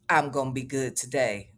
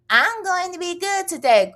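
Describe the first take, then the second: First: Flat deadpan reread. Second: Perky reading of a chat. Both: Retold or imitated. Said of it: "why you starting today?".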